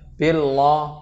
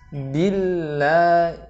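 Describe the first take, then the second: First: The L is said thick, with the tongue raised. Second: The L is said thin, with the tongue lowered. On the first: The speaker calls it wrong. "bukan billah, loh, loh" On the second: The speaker calls it right. "Harus billah, lebih ditipiskan huruf lamnya"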